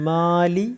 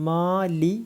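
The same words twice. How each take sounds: No difference in how they are said.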